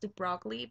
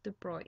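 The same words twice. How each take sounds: First: The name is pronounced as an English reader would. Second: The name is pronounced with its French pronunciation. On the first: The speaker calls it wrong. "it looks like it's pronounced de Broglie" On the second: The speaker calls it right. "it's actually pronounced de Broglie in French"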